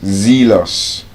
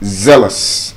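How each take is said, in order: First: The first vowel is long. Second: The first vowel is short. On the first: The speaker calls it wrong. "Both pronunciations wrong" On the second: The speaker calls it right. "They have the short S sound in them"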